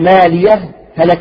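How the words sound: A brief pause separates the two words. "الإظهار مع السكت"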